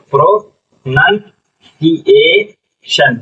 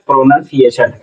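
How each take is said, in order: First: "pronunciation" very slowly as pro, नन, सी, ए, शन; syllable by syllable. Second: Said in the usual way. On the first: Shown as a demonstration. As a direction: sound out "pronunciation" in separate chunks. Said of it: "क्या पढ़ेंगे?". ("Pronunciation" धीरे-धीरे, हर हिस्सा अलग) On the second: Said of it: "क्या हो जाएगा?".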